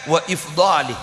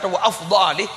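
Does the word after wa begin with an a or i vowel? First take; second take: i; a. First: The word begins with an i vowel. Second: The word begins with an a vowel. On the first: It follows the written text. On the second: It follows a teacher's reading. "harkat wa afdali"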